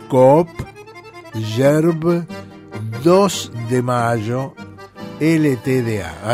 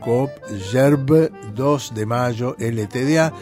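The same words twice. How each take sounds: First: It is said slowly and carefully. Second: It is said at normal speed.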